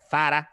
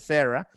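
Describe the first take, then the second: First: It begins with a Spanish z sound. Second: It begins with an English-style s sound. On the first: The speaker calls it right. "con la Z española" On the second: The speaker calls it wrong. "estaba súper mal pronunciado"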